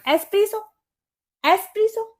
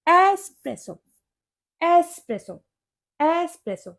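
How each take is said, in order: First: एस्प्रेसो as "es-PREE-so", high and rising; questioned pronunciation. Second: एस्प्रेसो as "es-PRESS-o", short e, falling; correct pronunciation. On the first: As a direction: try एस्प्रेसो with "pree" in the middle. (एस्प्रेसो को "एस्प्रीसो", ऊँचे सवालिया सुर में) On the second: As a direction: model एस्प्रेसो with "press" in the middle. (एस्प्रेसो में "प्रे" छोटा, सुर गिरता हुआ) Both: Shown as a demonstration. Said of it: "इसकी करेक्ट प्रोनाउंसिएशन होती है".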